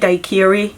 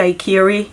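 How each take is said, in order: First: The word is said with a German pronunciation. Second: The same.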